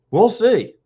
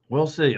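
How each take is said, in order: First: "We'll see" higher and louder, punched; "We'll see" said up and loud, a pointed warning; emphatic we'll see. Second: Said in the usual way. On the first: Acted. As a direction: lean hard on "We'll see". Emphatic first take, then plain.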